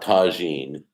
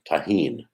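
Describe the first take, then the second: First: The middle consonant is a J sound. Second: The middle consonant is an H sound. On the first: The speaker calls it wrong. "It's not Tajine. I've been pronouncing it wrong all this time" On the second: The speaker calls it right. "So the J is an H sound"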